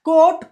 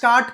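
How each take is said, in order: First: The vowel is an 'o' sound. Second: The vowel is not an 'o' sound. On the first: The speaker calls it right. "అన్నీ ఓలేనండి" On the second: The speaker calls it wrong. "కాట్ కాదు"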